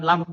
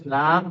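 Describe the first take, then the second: First: "lam" cut short, quick a; short vowel. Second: "lam" with the a held long; long vowel. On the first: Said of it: "bukan lam pendek". ("lam" dibaca pendek) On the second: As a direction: stretch "lam" slowly on its vowel. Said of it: "lam panjang ya". ("lam" dibaca panjang) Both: Shown as a demonstration.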